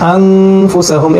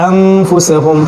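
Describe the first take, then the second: No difference in how they are said.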